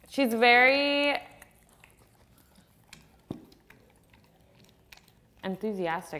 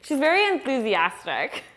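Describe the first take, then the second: First: It is said in a plain, flat way. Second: It is said with lively enthusiasm.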